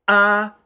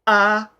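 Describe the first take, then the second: First: The vowel starts with a sharp glottal catch. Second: The same.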